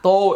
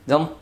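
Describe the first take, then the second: First: The vowel is said with rounded lips, like 'o'. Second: The vowel is said with straight, unrounded lips. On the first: The speaker calls it wrong. "তো এরকম না" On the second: The speaker calls it right. "এগুলি সব ঠোঁট সোজা করে উচ্চারণ করতে হবে"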